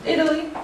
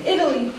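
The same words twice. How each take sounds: First: Italy with a sharp clear T; Italy with a hard crisp T. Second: Italy with a flapped American T. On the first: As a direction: say Italy the British way, T fully pronounced. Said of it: "instead of Italy". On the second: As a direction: say Italy the American way, the T tapped to a quick D. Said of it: "I say Italy". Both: Shown as a demonstration.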